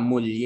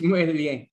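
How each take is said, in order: First: It is said with an Ilonggo local accent. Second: It is said with a Spanish accent. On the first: "Kung Ilonggo ka" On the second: "Kung Spanish"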